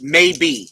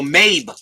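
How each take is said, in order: First: The name ends with a pronounced E sound. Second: The name ends without any E sound. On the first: The speaker calls it wrong. "Pronounced maybe" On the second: The speaker calls it right. "The E is silent, so pronounced Mabe"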